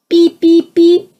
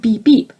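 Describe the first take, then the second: First: High, loud electronic beeps; imitating a beep. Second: Said in the usual way. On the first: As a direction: beep like a shrill alert. Mystery beeping again. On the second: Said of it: "I don't have a beep".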